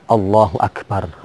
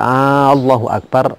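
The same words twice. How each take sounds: First: No vowel is drawn out beyond normal length. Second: The opening vowel of Allahu is drawn out long. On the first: God is the greatest. The speaker calls it right. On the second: It becomes a question: is God the greatest? The speaker calls it wrong.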